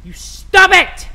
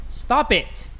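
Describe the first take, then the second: First: High, loud, drawn-out telling-off; shouted mock reprimand; mock scolding. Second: Restrained first warning; a short telling-off at normal volume; firm but contained mock reprimand; mock scolding. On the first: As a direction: explode into a parental scolding. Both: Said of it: "Had to scold my third child".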